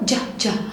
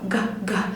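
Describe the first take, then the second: First: A soft j sound, as in gem. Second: A hard g sound, as in go.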